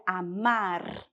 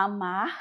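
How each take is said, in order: First: "amar" with a trilled R at the end; Spanish "amar", final R fully sounded. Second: "amar" with the final R suppressed; Portuguese dropped R. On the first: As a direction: roll the R that closes "amar". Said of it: "No espanhol seria amar". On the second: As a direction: let the R ending "amar" fall away. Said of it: "tendência de suprimir o R ao final". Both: Shown as a demonstration.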